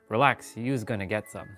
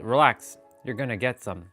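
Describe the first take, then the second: First: The word before gonna ends with an s sound. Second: The word before gonna ends with an r sound. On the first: This is the speaker's own way of saying it. "And I say, ... Use with an S" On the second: This is how someone else says it. "Nero says it"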